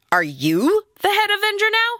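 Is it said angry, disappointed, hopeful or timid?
disappointed. It sounds disappointed.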